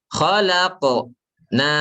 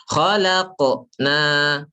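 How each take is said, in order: The two takes are said the same way.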